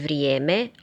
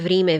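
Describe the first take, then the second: First: The first vowel is a gliding ije. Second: The first vowel is a plain i.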